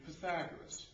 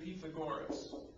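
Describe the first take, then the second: First: The name is said the usual American way. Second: The name is said the original Greek way. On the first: The speaker calls it wrong. "as we like to say in this country" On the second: The speaker calls it right. "the correct way to pronounce his name would have been"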